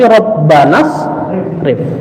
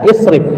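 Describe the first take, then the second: First: The i vowel drops, linking straight from Rabbana. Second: The word begins with a pronounced i vowel. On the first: The word is joined to the preceding word. "kalau disambung dengan Rabbana, tidak isrif, tapi Rabbanas rif" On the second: The word stands alone without a preceding word. "maka dibaca dengan ya isrif"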